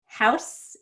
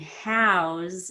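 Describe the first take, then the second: First: HOUSE with a short vowel and hissed S; noun with S. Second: HOUSE with a long vowel and buzzing Z; verb with Z. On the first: Teacher shows house as a noun, HOUSE ending in S. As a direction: end HOUSE on a voiceless S. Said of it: "it ends in an S sound". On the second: Teacher shows house as a verb, HOUSE ending in Z. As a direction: stretch HOUSE and end it on Z. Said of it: "it ends in a Z sound". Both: Shown as a demonstration.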